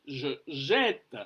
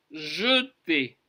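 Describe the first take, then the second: First: JE JETTE drawn out with an open "eh"; slow "zhuh ZHET", sounding the final t. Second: JETER with a rounded, closed e in the first syllable; unstressed e in JETER. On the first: Teacher showing the sound change, careful open vowel. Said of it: "Vous avez entendu la, le changement phonétique". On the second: Teacher contrasting jeter with je jette, careful pronunciation. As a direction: say JETER in two parts, "zhuh-TAY". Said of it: "mais on dit je jette". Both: Shown as a demonstration.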